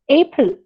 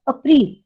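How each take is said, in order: First: It is said with the usual English pronunciation. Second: It is said with the Hindi pronunciation. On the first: "Instead of April" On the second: "They call it as April"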